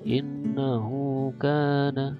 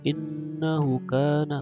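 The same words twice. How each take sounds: First: The vowel of 'hu' is lengthened. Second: The vowel of 'hu' is short. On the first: The speaker calls it right. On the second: The speaker calls it wrong.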